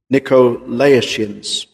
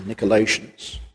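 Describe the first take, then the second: First: Nicolaitans said slowly, syllable by syllable, with a full "oh" after Nic; pronunciation variant. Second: Nicolaitans said softer and lower, with a reduced "uh" after Nick; alternative pronunciation. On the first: Preacher showing the congregation one way to say it, "Nicolaitans" slow and fully sounded. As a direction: draw out "Nicolaitans" with a clear "Nico" at the front. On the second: Preacher offering the congregation another pronunciation, "Nicolaitans" softer with a reduced second syllable. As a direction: run "Nicolaitans" together as "Nick-uh-LAY-shuns".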